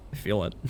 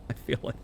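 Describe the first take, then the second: First: Said in the usual way. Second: Breathy laughing whisper; whispered through laughter. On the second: Real, not acted. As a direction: giggle it under your breath. Repeats the line, second time laughing.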